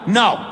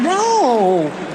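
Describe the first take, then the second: First: It is a firm, serious refusal. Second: It is a teasing, half-willing refusal.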